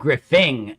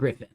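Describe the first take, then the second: First: The name ends with a clear 'ng' sound. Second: The name ends with a plain 'n' sound. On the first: The speaker calls it right. "the G is part of my name" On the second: The speaker calls it wrong. "not Griffin"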